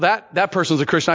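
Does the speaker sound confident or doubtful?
confident. It sounds confident and affirming. The listener is certain the person is a believer. "Instead, they say, no"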